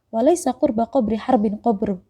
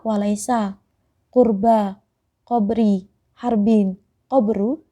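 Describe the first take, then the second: First: It is said quickly as one run. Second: It is said slowly, each word separated. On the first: Together the words tangle the tongue. "coba aja kita ucapkan cepat" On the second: Each word on its own is easy to say. "ketika kita pisah per kata-kata"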